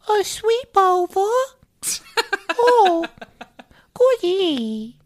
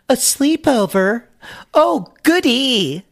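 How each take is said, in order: First: It is said in a high, childish baby voice. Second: It is said in the speaker's normal voice.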